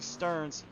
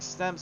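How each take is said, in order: First: The name is said as Stearns. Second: The name is said as Stems. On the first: The speaker calls it right. "It's actually Stearns" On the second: The speaker calls it wrong. "I just realized I was saying Stems the whole time"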